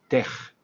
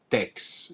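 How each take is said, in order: First: The word ends in a single k-like sound. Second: The word ends in a ks sound. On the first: The speaker calls it right. "tenemos que decir tech" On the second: The speaker calls it wrong. "y no tex"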